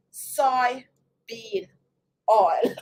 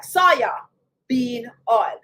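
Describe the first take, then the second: First: "soy bean oil" said slowly as three separate words; soy bean oil, separated. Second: "soya bean oil" run together fast, as "saya-bean", nearly one word; Jamaican soya bean. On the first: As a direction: say "soy" and "bean" apart, not the Jamaican way. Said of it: "that is why I pronounce it like that". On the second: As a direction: blend "soya bean" quickly, Jamaican style. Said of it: "we say it, like, so fast that it seems like it's one word". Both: Shown as a demonstration.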